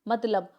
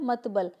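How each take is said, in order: First: The l sound comes before the b. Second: The b sound comes before the l. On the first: The speaker calls it right. "Correct है मतलब" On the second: The speaker calls it wrong. "Wrong है मतबल"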